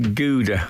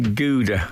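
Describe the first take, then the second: First: Gouda is said with an American pronunciation. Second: Gouda is said with an American pronunciation.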